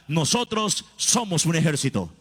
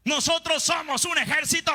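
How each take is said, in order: First: Said in the usual way. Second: A full-voiced battle cry, much higher; preacher's shout. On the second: Real, not acted. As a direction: shout it to rouse the congregation.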